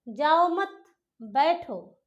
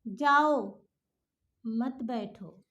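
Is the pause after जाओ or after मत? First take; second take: after मत; after जाओ. First: There is a pause after मत. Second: There is a pause after जाओ.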